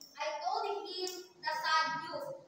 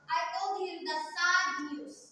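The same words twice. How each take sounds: First: The stress is on "him". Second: The stress is on "sad".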